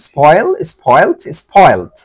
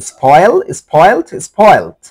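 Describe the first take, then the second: Both takes have the same delivery.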